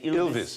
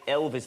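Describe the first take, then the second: First: It is said in an Australian accent. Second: It is said in a neutral accent.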